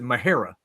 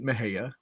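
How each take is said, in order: First: The name is said with an R sound. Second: The name is said without any R sound. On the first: This is how the locals say it. "the locals there, they pronounce it Mahara. They put a R in there" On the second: This is how an outsider reads the spelling. "you could pronounce it Mexia, right? Just like you would do Tejas"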